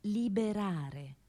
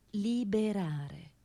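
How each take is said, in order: Both takes have the same delivery.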